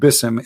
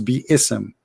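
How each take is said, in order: First: No vowel is heard between the b and s. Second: An extra vowel is heard between the b and s. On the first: The alif has been dropped from the word. The speaker calls it wrong. "there's nothing it's called bism" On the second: The alif is kept in the word. The speaker calls it right. "it is bi-ism"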